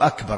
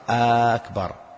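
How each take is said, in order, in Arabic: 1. الحركة الأولى قصيرة. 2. الحركة الأولى ممدودة وطويلة. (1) "أو أكبر" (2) "قال أكبر"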